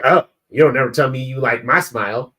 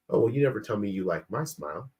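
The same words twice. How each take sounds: First: Louder, accusing mock-wife complaint; tone-deaf complaint. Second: Softer, quicker, casual delivery; innocent remark. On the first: Wife to husband after he praises a stranger's smile, accusing. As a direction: imitate a wife's pointed, raised-voice gripe. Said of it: "my wife doesn't hear her say it to, to me like that". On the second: Retold or imitated. Wife as she hears herself speaking to husband, mild and offhand. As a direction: toss it off as a harmless passing comment. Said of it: "She hears".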